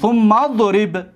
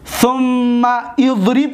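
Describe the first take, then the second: First: The mim links straight onto the dad, skipping the vowel. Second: The initial vowel of idrib is sounded separately. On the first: The speaker calls it right. "میم در ضاد میچسبونیم" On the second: The speaker calls it wrong. "ثم اضرب نمیگیم"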